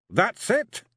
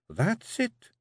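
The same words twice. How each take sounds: First: High, louder rising disbelief; can it really be done; Rob amazed. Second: High Scots rising approval; Jeanie approving. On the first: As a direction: Rob astonished at his writing. Rob's voice. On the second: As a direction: she nods him through. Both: Acted.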